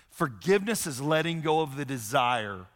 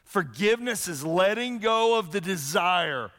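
First: Said in the usual way. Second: Higher, slower, weighty restatement; emphatic repeat. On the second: Shown as a demonstration. Pastor repeating the definition for the congregation, slow and emphatic. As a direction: lean on "go" as you restate it. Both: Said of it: "repeated with emphasis".

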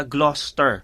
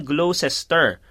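First: 'Gloucester' as GLOS-ter; actual pronunciation. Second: 'Gloucester' slowly as glo-SES-ter; reading as written. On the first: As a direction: say 'Gloucester' in two syllables. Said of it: "Pero yung pala". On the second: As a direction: sound out three syllables in 'Gloucester'. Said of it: "pag binasa mo siya". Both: Shown as a demonstration.

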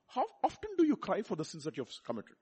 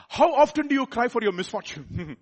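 First: Softer, sober preaching question; subdued rhetorical question; searching question. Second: Louder, higher rhetorical question; raised-voice challenge to the congregation; pointed contrast. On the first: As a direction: ask it gently, letting it sink in. First of two contrasted searching questions. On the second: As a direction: throw the question out forcefully. Louder contrasting question, laughs after. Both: Real, not acted.

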